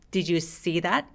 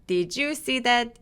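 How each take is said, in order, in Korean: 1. 'see' 단어에 강세가 있어요. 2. 'you' 단어에 강세가 있어요. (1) "you에선 조금 힘을 빼고" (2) "you에다 강세 주시는 분들이 많은데요"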